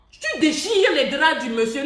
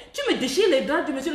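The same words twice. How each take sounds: First: Slow, weighted, mock-scolding words; tu déchires les draps du monsieur, slow and leaning on tu; slow emphatic scolding. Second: Said in the usual way. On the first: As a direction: drag it out to shame her. Scolding a woman, repeated line.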